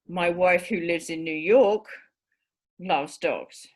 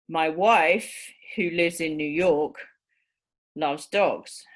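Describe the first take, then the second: First: The middle clause runs on without pauses. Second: The middle clause is set off by pauses. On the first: The speaker has more than one wife. "in the second case, the implication, he's got more than one wife" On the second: The speaker has only one wife. "In the first case, he's only got one wife"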